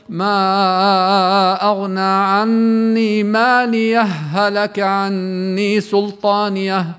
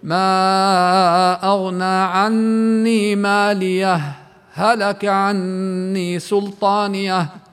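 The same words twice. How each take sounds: First: No pause; the two h sounds merge into one doubled h. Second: A brief breathless pause separates the two clear h sounds. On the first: "إدغام الهاءين، بحيث تصيران هاء واحدة مشددة" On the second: "سكتت حركتين ما تنفست"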